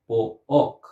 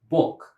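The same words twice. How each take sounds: First: "bo-ok" broken into two vowel sounds; split into two syllables. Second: Said in the usual way. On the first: Shown as a demonstration. Teacher shows what we never say, "bo-ok" in two syllables. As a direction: say "bo-ok" as two separate beats. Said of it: "We never say bo-ok". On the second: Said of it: "we say book".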